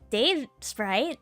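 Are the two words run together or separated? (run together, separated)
separated. The two words are separated by a gap. The speaker calls it wrong. "With the space between words? It's not Dave Sprite"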